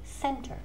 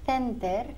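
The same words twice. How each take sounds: First: The word begins with an s sound. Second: The word begins with a th sound. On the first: The speaker calls it right. "suena como una S" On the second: The speaker calls it wrong. "we never say center ni city"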